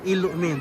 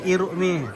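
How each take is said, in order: First: The middle consonant sounds like an L. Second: The middle consonant sounds like an R. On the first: "R sudah tidak kentara"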